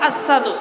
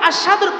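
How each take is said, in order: First: The word is pronounced indistinctly, not clearly. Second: The word is pronounced clearly and distinctly. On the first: An injured tongue could not say it properly. "তিনি উচ্চারণ করতেন আশহাদু" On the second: This is the standard form of the word. "আশহাদুর পরিবর্তে"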